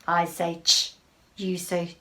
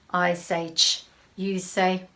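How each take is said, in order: No difference in how they are said.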